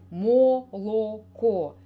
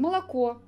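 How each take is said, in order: First: Every o vowel is pronounced fully, as spelled. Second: The unstressed vowels are reduced, as in speech. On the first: The speaker calls it wrong. "Мы не произносим" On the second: The speaker calls it right. "Мы произносим"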